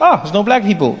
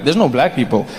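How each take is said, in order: First: Easy, untroubled noticing; the good way. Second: Low, subdued, uneasy realisation; note it warily, as if something happened; ominous understated observation; the bad way. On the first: Acted. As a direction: sigh it out as a pleasant observation. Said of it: "the good way is when you get there". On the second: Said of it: "then there's some places you go".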